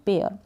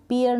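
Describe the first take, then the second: First: पेयर with an "ay" vowel, "pay-er"; correct pronunciation of pear. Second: पेयर said wrongly with a long ee, "pee-er"; mispronounced pear. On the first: Teacher models the fruit's name, correct pronunciation. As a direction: say पेयर with the ए sound. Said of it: "इसको पढ़ेंगे पेयर". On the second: Teacher shows learners what not to read, mispronounced pear. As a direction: make पेयर sound like "peer". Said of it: "इसको भी पेयर नहीं पढ़ेंगे". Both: Shown as a demonstration.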